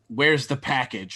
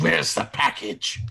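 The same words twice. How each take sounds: First: It is said in a normal voice. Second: It is said in a deep voice.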